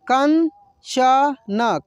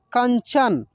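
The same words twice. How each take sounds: First: कंचन stretched very slowly, each syllable sounded out as कं-च-न. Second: Said in the usual way. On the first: Shown as a demonstration. Teacher sounds out the word slowly for students. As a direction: spell out कंचन slowly for learners. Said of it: "पढ़ कर देखते हैं बारी बारी से कि कैसे इसको पढ़ेंगे". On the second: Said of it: "कैसे इसको पढ़ेंगे".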